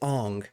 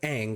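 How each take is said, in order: First: The vowel sounds like the 'o' in on. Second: The vowel sounds like the 'a' in cat. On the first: This is how the film says the name. The speaker calls it wrong. "they say Ong" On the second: This is how the original show says the name. The speaker calls it right. "which is how they pronounce it in the T V show"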